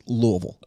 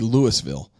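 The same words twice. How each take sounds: First: The syllables are squeezed together and reduced. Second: Every syllable is pronounced fully, as spelled. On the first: This is how locals say it. The speaker calls it right. "But it's Louisville" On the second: This is how an outsider would say it. The speaker calls it wrong. "it would be Louisville, according to spelling"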